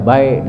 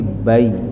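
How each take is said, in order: First: The word ends with a clipped k sound. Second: The word ends on an open vowel glide. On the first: The speaker calls it wrong. "Tidak baik dibaca" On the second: The speaker calls it right. "tapi bai"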